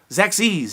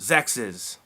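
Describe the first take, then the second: First: The name ends like the word sexy. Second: The name ends like the word sexist. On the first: The speaker calls it wrong. "a lot of people like to pronounce it Zexies. And it doesn't sound as good" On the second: The speaker calls it right. "It's not sexy, it's sexist"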